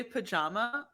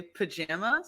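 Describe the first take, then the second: First: Pajama with a broad "ah" in the middle; pajama, middle vowel as in "father"; pronunciation contrast. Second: Pajama with a short "a" as in "jam"; pajama, middle vowel as in "cat"; Midwestern pronunciation. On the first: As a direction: say pajama as pa-JAH-ma. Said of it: "I say pajama and you guys say". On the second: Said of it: "you guys say pajama". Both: Shown as a demonstration.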